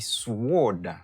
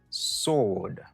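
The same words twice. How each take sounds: First: A W sound is pronounced after the S. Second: No W sound is pronounced after the S. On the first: The speaker calls it wrong. "Ou pas dit sword" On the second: The speaker calls it right. "ou dit sword"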